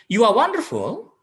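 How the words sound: It is said in a doubtful, questioning tone. The speaker is unsure the person is wonderful. "We doubt that he is wonderful or not"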